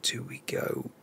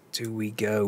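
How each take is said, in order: First: Breathy private whisper to himself; whispered self-question before a risky switch. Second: Said in the usual way. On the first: Real, not acted. Muttering a tactical decision.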